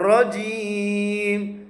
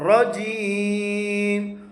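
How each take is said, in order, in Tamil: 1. நடுவில் உள்ள மெய் 'j' ஒலி. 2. நடுவில் உள்ள மெய் 'j' ஒலி.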